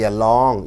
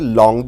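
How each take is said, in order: First: The first 'a' is said fully and stressed. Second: The first 'a' is weak, almost silent. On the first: The speaker calls it wrong. "You don't say along" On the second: The speaker calls it right. "You say long the road"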